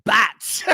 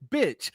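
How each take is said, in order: First: "Batch." with a flat a, as in "cat", in place of the i; mock batch for bitch. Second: "Bitch." said with a clean short i, as in "bit"; clearly enunciated bitch. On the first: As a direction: say "Batch." with that wide a sound. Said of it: "He didn't say, "Batch". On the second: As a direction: enunciate "Bitch." properly with a crisp i vowel. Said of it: "he actually enunciated". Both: Shown as a demonstration.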